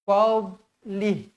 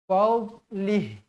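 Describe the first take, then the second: Both takes have the same delivery.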